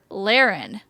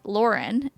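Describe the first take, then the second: First: The first syllable does not sound like 'lore'. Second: The first syllable sounds like 'lore'. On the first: This is how people in her new home say it. "everyone calls her Laren" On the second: This is how she has always said her own name. "L like L O R E N, that pronunciation"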